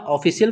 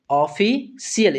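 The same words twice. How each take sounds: First: Said in the usual way. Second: ऑफिशियल slowly, split as ऑफि-शियल; teacher's slow, divided ऑफिशियल; syllable-by-syllable reading. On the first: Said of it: "इस word का ऑफिशियल पढ़ते हैं". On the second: Shown as a demonstration. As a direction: sound out ऑफिशियल with a break before शियल. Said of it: "क्या पढ़ेंगे".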